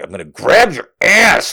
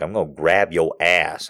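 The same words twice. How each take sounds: First: Imitating him, firmly spelling it out; emphatic repeat. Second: Imitating him, low and softer; understated low mimicry; low matter-of-fact. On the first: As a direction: lean hard on "grab" and "ass". He repeats it after disbelief. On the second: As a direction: announce it low and quietly. Man calmly announces it, first take.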